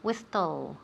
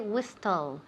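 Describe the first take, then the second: First: The t sound is pronounced in the middle. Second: The same.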